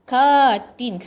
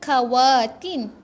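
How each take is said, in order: First: No 'wa' syllable is sounded before 'tin'. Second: A 'wa' syllable is sounded before 'tin'. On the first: The speaker calls it right. "Katin. Sebab waw ni tak ada baris" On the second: The speaker calls it wrong. "Salah, nak baca katin ke kawatin?"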